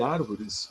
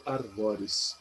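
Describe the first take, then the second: First: Said in the usual way. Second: "arvores" as ar-VÓ-res, open o; stress on VO. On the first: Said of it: "vira um negócio estranho chamado arvores". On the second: Shown as a demonstration. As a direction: stress the middle of "arvores", verb form. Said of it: "árvores vira um negócio estranho chamado arvores". ("arvores" com tônica no VÓ, o aberto)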